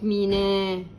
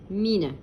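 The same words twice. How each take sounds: First: The final vowel is drawn out long. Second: The final vowel is kept short. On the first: The speaker calls it wrong. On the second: The speaker calls it right.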